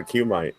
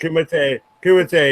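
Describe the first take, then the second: First: Kumite misread as "KYOO-might"; misread word. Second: Kumite ending in "tay"; corrected pronunciation. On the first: Real, not acted. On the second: Shown as a demonstration. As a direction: say Kumite as "KOO-muh-tay". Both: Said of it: "I read it wrong".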